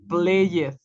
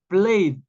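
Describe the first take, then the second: First: The word ends with a t sound. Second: The word ends with a d sound. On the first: The speaker calls it wrong. "no pronunciamos played" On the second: The speaker calls it right. "Con una D"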